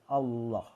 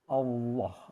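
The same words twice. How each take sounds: First: The vowel is said fully open. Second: The vowel is rounded toward an o sound. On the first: The speaker calls it right. "harusnya terbuka aja" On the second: The speaker calls it wrong. "nggak boleh ada di dimanipulasi dengan wow"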